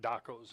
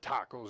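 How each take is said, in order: First: The word begins with a D sound. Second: The word begins with a T sound. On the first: The speaker calls it wrong. "not dacos" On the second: The speaker calls it right. "I should have said tacos"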